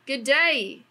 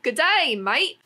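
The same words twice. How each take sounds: First: Mock Australian greeting, lightly done; a breezy Aussie hello; Australian accent. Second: Hammed-up Australian "Good day, mate!", high and loud; Australian accent. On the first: Australian accent reading the brand's greeting aloud. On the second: Australian accent, mocking the brand's Aussie-themed slogan. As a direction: bellow it like a cheery Aussie. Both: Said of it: "kinda like an Australian".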